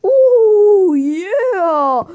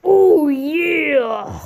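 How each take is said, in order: First: High, loud drawn-out wail; play-acted figure wailing with rising and falling swoops; Paul Bearer. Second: Drawn-out wrestler catchphrase impression; Macho Man. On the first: Toy manager calls out on his knees, high mock wail. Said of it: "we get Paul Bear ... and he's all like". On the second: Rival wrestler comes in to do it better, mock catchphrase cry. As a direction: play a wrestler's long, swooping cry. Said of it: "Macho Man comes in, and he's like".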